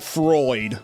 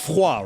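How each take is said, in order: First: The vowel sounds like 'oy', as in 'void'. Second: The vowel sounds like 'wah', as in French. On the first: It ignores the French origin. "Or do they just straight up pronounce it Freud?" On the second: It follows the French word for cold. "Like the French word for cold?"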